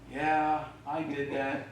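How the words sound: It is said sheepishly.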